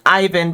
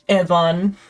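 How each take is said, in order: First: The name has an American English pronunciation. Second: The name has a Spanish pronunciation. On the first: "the go-to for like American English would be to pronounce it Ivan" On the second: "if you're trying to like pronounce it like in a Spanish way"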